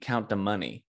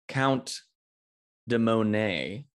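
First: The last syllable of the name sounds like 'nee'. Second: The last syllable of the name sounds like 'nay'. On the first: Others mispronounce the character's name. The speaker calls it wrong. "everyone keeps saying Count de Money" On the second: This is the character's intended name. The speaker calls it right. "he's Count de Monet"

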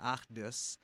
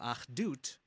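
First: The word ends with an s sound. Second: The word ends with a t sound.

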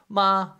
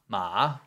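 First: It is said with the first tone. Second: It is said with the third tone.

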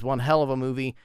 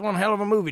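First: It is said in a grave, serious tone. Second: It is said in an enthusiastic, hyped tone. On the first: The film is disturbing and intense. "and I don't say that as like" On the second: The film is a fun recommendation. "Check it out, buddy"

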